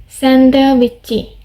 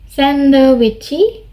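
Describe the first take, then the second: First: The word is said with four syllables. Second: The same.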